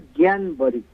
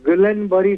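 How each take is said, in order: First: The first word sounds like 'Gyan'. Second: The first word sounds like 'Gullen'. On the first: This is the actual pronunciation. The speaker calls it right. "Actually pronounce करे" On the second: This is how people usually say it. The speaker calls it wrong. "आमे कहू"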